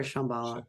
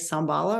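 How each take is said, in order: First: Shambhala said with SH at the start, "SHAM-ba-la"; pronounced with SH. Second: Shambhala said with a plain S at the start, "SAM-ba-la"; pronounced with S. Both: Shown as a demonstration. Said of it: "is that how you say it?".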